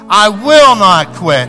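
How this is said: It is said forcefully, like someone angry. "say it with me like you're really mad and you're not going to quit"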